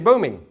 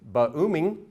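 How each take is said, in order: First: The b runs straight into the vowel. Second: An extra vowel follows the b sound. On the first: The speaker calls it right. "you say booming" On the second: The speaker calls it wrong. "you don't say ba-ooming"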